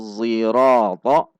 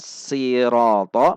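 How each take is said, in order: First: The word begins with an emphatic z sound. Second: The word begins with a plain s sound. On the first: "menggunakan zai yang ditafkhim" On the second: "menggunakan sin"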